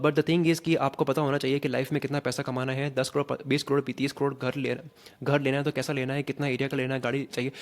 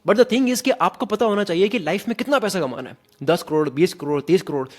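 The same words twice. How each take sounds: First: Detached read from a script, no feeling; just read it off the page, uninvolved; flat script reading. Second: Louder, higher, full of conviction; confident, owned delivery. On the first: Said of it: "मैं उसको ना बस, बस पढ़ रहा हूँ केवल". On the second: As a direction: say it like you truly mean it. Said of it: "मेरे को खुद को भी पता है मैं क्या बोल रहा हूँ". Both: Shown as a demonstration.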